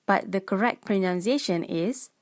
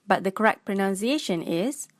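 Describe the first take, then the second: No difference in how they are said.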